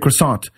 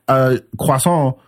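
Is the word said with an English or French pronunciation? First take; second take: English; French. First: The word is said with an English pronunciation. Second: The word is said with a French pronunciation. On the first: The speaker calls it wrong. "I'm not going to say" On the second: The speaker calls it right. "I pronounce it the French way"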